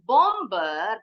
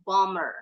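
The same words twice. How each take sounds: First: The b sound is pronounced in the middle. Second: The b sound is silent in the middle. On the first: The speaker calls it wrong. "bacanya bukan bomber because the B is silent" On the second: The speaker calls it right. "jadi bacanya bomber"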